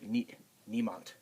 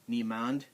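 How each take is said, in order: First: The word ends with a t-like sound. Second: The word ends with a clear d sound. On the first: The speaker calls it right. "It's more sounding more like a T" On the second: The speaker calls it wrong. "It isn't really said niemand. There's no D sound too much there"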